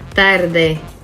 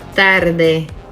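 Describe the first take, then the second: First: The T and D are made against the teeth. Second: The same.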